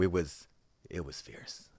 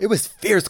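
First: It is said with a dry, sarcastic tone. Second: It is said with genuine, excited enthusiasm. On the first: The show went steadily downhill. "it was a swift and steady decline" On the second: The show was great. "how was the show?"

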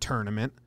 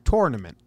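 First: The first syllable sounds like 'turn'. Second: The first syllable sounds like 'tour'. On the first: The speaker calls it wrong. "It's not T-U-R-N" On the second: The speaker calls it right. "It's T-O-U-R"

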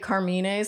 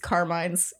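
First: The name is said with an Italian pronunciation. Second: The name is said with an American pronunciation. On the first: "I want to say Carmine's" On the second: "it's Carmine's in America"

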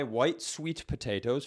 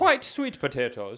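First: It is said in the speaker's ordinary accent. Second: It is said in an attempted Irish accent.

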